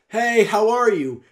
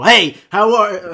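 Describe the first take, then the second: First: It is projected loudly but sounds friendly. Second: It is yelled and sounds aggressive.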